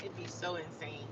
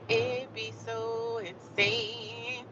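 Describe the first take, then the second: First: Said in the usual way. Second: Very slow, soft, stretched words; hushed, long-drawn emphasis; drawn-out exasperation. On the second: Pretend. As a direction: drag out each word, especially "insane". Repeats it, stretched out.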